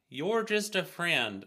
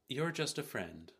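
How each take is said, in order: First: It is read attempting a Baltimore accent. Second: It is read in the reader's ordinary accent. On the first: "I'll try" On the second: "No, I can't do Baltimore"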